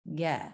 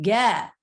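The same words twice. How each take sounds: First: Said in the usual way. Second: "ge" rising then falling; pitch change. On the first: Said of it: "It wasn't". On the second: Shown as a demonstration. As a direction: glide the pitch on "ge".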